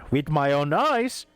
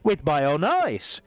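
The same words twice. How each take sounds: First: It is said as a rising question. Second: It is said as a flat statement.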